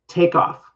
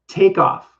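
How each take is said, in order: The two takes are said the same way.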